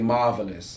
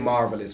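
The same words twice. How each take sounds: First: The R sound in the word is dropped. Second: The R sound in the word is pronounced. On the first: "we say marvelous ... I'm taking that R off" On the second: "we don't say marvelous"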